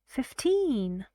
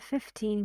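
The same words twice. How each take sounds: First: The stress is on the second syllable. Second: The stress is on the first syllable. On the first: It clearly means fifteen, not fifty. "No, not fifty" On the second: It can be misheard as fifty. "you are using that on the first syllable here"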